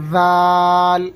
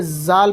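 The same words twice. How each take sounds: First: Long ذال with a soft voiced th as in "this"; very softly. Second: زال begun with a buzzing z; mispronounced buzz. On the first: Teacher shows correct reading, soft drawn-out ذال. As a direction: rest tongue on upper teeth and draw out ذال without buzz. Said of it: "بالکل نرمی سے". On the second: Teacher warns of the wrong reading, buzzing زال. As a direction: buzz the first sound of زال instead of softening it. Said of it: "پڑھ دیا تو غلط ہو جائے گا". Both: Shown as a demonstration.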